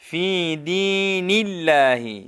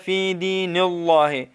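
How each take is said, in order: First: The L in Allah is thin and light. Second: The L in Allah is heavy and full. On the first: The speaker calls it right. "लफ्ज़ अल्लाह को हम बरीक पढ़ेंगे" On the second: The speaker calls it wrong. "तो निल्लाहि ये गलत है"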